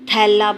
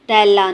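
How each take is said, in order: First: The first consonant has a puff of breath. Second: The first consonant has no puff of breath. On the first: The speaker calls it right. "दो चश्मी है का इजाफा करें तो थैला बनता है" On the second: The speaker calls it wrong. "तैला नहीं"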